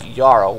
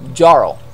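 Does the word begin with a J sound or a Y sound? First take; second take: Y sound; J sound. First: The word begins with a Y sound. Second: The word begins with a J sound. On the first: This is how it is said locally. "They pronounce it like it's got a Y" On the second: This is how the spelling suggests it. "It would be like Jarl"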